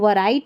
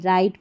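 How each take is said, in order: First: The word begins with a w sound. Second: The word begins directly with an r sound. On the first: The speaker calls it wrong. "वराइट नहीं" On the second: The speaker calls it right. "राइट पढ़ते हैं"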